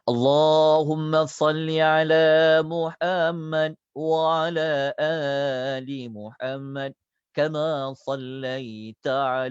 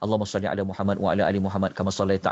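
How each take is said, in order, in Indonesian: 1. Dibaca dengan lambat, suku katanya dipanjangkan. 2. Dibaca dengan cepat, tanpa memanjangkan suku kata. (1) "satu lafaz saya ajar perlahan" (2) "Kita boleh baca laju pun"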